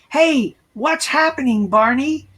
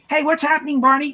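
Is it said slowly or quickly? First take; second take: slowly; quickly. First: It is said slowly and drawn out. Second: It is said quickly and naturally.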